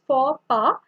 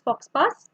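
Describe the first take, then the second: First: The final x and s sounds are silent. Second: The final x and s sounds are pronounced. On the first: The speaker calls it right. "but it's faux pas" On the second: The speaker calls it wrong. "this is not pronounced as fox pass"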